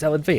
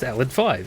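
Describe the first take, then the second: First: The last part is said as the letter V. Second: The last part is said as the number five. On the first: "no, no, it's Alad V" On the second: "It's Roman numeral. It's five"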